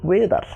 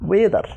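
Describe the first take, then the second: No difference in how they are said.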